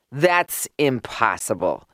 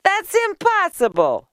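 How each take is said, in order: First: Low-key, dismissive scoff; understated male-character disbelief. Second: High, loud disbelief; high-pitched, scornful exclamation; scoffing. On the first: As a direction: dismiss it without raising the voice. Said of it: "scoffed Mendel". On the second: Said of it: "scoffed Leah". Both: A narrator's reading.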